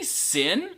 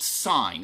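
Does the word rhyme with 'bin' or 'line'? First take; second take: bin; line. First: The vowel is short, rhyming with bin. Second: The vowel is long, rhyming with line. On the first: The speaker calls it wrong. "don't say sin" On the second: The speaker calls it right. "It's always pronounced sine"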